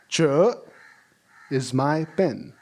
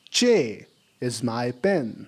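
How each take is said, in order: First: The first word has no audible vowel. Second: The first word ends in a clear vowel.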